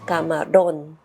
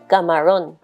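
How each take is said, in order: First: The R is said with a trill. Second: The R is said without a roll. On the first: The speaker calls it right. "this is the sound that I'm doing" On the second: The speaker calls it wrong. "the sound that I used to say was this"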